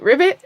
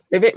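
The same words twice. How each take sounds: First: Higher, louder croaky ribbit; frog voice. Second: Said in the usual way. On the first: Shown as a demonstration. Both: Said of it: "let's make a sound like a frog".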